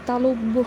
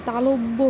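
The two takes are said the same way.

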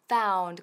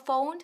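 First: The vowel is said with a wide-open mouth. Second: The vowel is said with a narrow mouth. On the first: The speaker calls it right. "con la boca bien abierta" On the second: The speaker calls it wrong. "No found"

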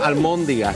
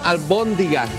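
First: The second syllable begins with an m sound. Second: The second syllable begins with a b sound. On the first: The speaker calls it wrong. "no almóndigas" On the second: The speaker calls it right. "vamos a hacer albóndigas"

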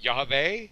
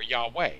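First: The middle consonant is a V sound. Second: The middle consonant is a W sound.

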